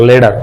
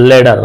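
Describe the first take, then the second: The two takes are said the same way.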